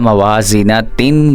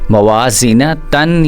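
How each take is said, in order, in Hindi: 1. शब्द आख़िरी tin पर ख़त्म होता है। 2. शब्द आख़िरी tan पर ख़त्म होता है। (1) "ता दो ज़ेर तीन ... नहीं पढ़ना" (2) "ता दो ज़बर तन ... नहीं पढ़ना"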